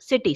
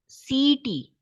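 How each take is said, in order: First: The first vowel is kept short. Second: The first vowel is stretched out long. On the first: The speaker calls it right. "Here I is a short vowel sound" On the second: The speaker calls it wrong. "you have unnecessarily stretched the sound"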